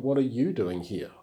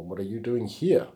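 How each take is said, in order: First: "you" carries the emphasis in the question; stress on YOU. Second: "here" carries the emphasis at the end; stress on HERE. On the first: Teacher showing which word God emphasizes, stress on "you". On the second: Teacher offering another reading of God's question, stress on "here". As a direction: lean on the final word "here". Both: Shown as a demonstration. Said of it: "I think the emphasis is on".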